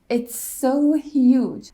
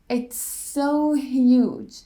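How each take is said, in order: First: One single S sound joins the words. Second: The same.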